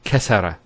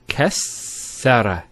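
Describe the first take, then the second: First: The s sound is short, single. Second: The s sound is held long, doubled. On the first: The speaker calls it wrong. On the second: The speaker calls it right. "give it the double sound"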